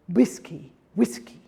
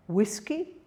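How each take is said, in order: First: Whiskey with a thick W, almost a B; heavy Spanish W. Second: Said in the usual way. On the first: Shown as a demonstration. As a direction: demonstrate whiskey as imported into Spanish. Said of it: "very heavy". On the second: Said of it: "imported words".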